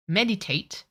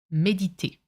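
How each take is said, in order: First: Meditate said the English way, MED-i-tate; English pronunciation. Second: Méditer in French, may-dee-TAY; French pronunciation. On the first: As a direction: give Meditate its English sounds. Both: Shown as a demonstration. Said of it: "we say it differently".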